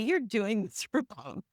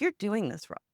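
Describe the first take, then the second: First: It is said in a bright, cheerful tone. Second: It is said in a flat, neutral tone. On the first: The mistake is something to be happy about. "sound like, "Yay" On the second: The mistake is simply information to look into. "it's just kind of neutral"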